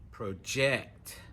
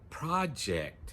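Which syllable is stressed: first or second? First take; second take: second; first. First: The stress is on the second syllable. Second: The stress is on the first syllable. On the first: It is used as a verb. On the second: It is used as a noun.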